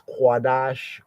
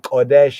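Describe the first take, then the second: First: The k is followed by a w sound. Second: The k is followed directly by the vowel.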